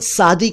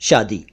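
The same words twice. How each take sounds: First: The word begins with an 's' sound. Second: The word begins with an 'sh' sound. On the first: It means plain or simple. The speaker calls it wrong. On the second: It means marriage. The speaker calls it right.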